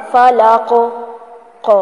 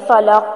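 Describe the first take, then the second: First: فلق, ق with a bouncing qaf; فلق ending in qalqala. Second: فلق with a dead, unbounced qaf; the wrong way to end فلق; flat final qaf. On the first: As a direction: make the qaf of فلق echo. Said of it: "اس کو کہتے ہیں کلکلا کرنا". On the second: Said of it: "ایسے نہیں پڑھنا". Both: Shown as a demonstration.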